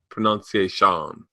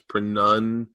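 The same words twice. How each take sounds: First: The second syllable sounds like 'nun'. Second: The second syllable sounds like 'noun'. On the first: The speaker calls it right. "it's pronunciation" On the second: The speaker calls it wrong. "it's not pronunciation pronoun pronoun"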